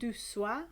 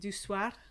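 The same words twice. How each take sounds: First: The final R is weak and barely heard. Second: The final R is clearly and strongly pronounced. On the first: The speaker calls it wrong. "I don't pronounce, never pronounce my R's um, sufficiently" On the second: The speaker calls it right. "I should say"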